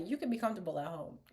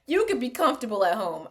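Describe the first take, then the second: First: Softer, quicker, breaking into laughter; giggly quote. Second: Said in the usual way. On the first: Retold or imitated. Retelling the queen's line while laughing. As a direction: try to say it but crack up. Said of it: "I'm gonna tell it to somebody". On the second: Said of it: "I can't say it".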